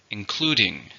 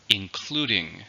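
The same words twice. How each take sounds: First: Said in the usual way. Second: Including said in parts, CLU stressed; stress on second syllable of including. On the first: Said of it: "how many syllables are in the word". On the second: Shown as a demonstration. Teacher showing learners the syllables of including, second one stressed. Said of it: "stresses on the second".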